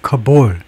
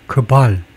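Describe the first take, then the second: First: The last syllable has an 'o' vowel. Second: The last syllable has an 'a' vowel. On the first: The speaker calls it wrong. "왜 자꾸 저는 카볼이라고 읽는 경향이 있냐면" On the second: The speaker calls it right. "소리 커발이 좋다"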